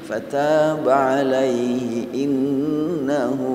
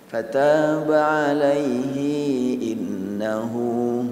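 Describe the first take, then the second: First: The final vowel of alaihi is kept short. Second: The final vowel of alaihi is drawn out long.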